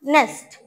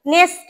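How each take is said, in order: First: "নেস্ট" with short e and falling tune; corrected pronunciation. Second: "নেস্ট" as the mistaken form, pitched up; wrong pronunciation. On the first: Teacher correcting pupils, "নেস্ট" with a clean short e. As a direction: say "নেস্ট" as one falling syllable, nest. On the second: Teacher showing pupils the mistake, "নেস্ট" said questioningly. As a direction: say "নেস্ট" as the error to avoid, vowel off. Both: Shown as a demonstration. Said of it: "নেস্ট না".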